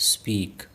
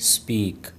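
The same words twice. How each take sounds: The two takes are said the same way.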